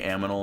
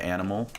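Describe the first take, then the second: First: The m sound comes before the n. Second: The n sound comes before the m.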